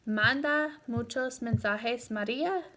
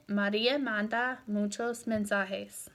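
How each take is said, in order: First: "Manda muchos mensajes, María" lifting on the final name; rising question intonation. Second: "María manda muchos mensajes" settling at the end; statement intonation. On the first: Teacher showing the subject-last question, voice rising on "María". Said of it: "the intonation on that". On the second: Teacher giving a statement example, pitch settling on "mensajes". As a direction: let "mensajes" fall as a fact. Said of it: "That's a statement". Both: Shown as a demonstration.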